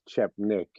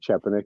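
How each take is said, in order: First: The name is said with two syllables. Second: The name is said with three syllables. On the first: The speaker calls it wrong. "The second E is silent" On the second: The speaker calls it right. "I think Chepanik is right"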